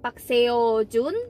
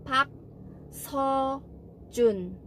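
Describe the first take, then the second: First: The middle syllable is said like 'seo'. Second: The middle syllable is said like 'so'. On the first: The speaker calls it wrong. "bukan Park Seo Jun" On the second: The speaker calls it right. "bacanya tapi Park So Jun"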